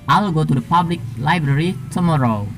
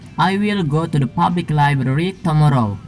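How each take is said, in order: First: The words 'I will' are contracted to 'I'll'. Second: The words 'I will' are said in full.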